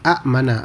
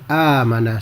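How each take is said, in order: First: A glottal stop follows the short first vowel. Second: A long first vowel with no glottal stop. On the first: "jadi dua hamzah jadi amanah" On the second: "akhirnya disebut secara amanah saja"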